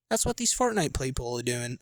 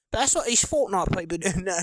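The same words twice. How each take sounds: First: Said in the usual way. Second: Put-on goofy stab at an Australian accent. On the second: Streamer drifting into accent while mocking Fortnite players, playful Australian accent. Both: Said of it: "I don't even want to switch to Australian".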